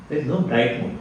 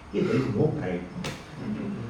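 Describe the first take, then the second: First: Said in the usual way. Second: Slow, soft rebuttal, 'Hey' rising; softer correction. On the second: Shown as a demonstration. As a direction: quietly deny the bright moon, 'Hey' lifted. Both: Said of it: "How can you say".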